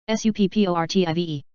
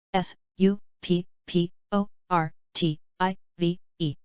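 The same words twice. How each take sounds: First: Quick letter run; brisk recap spelling; fast spelling. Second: Slow, letter by letter; unhurried classroom spelling. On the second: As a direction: spell each letter out slowly. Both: Shown as a demonstration. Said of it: "spelling drill, slow then fast".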